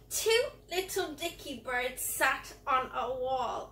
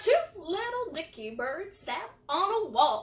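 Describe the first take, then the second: First: It is said in a disgusted voice. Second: It is said in a cowboy voice.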